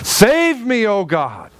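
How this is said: It is cried out with desperate urgency.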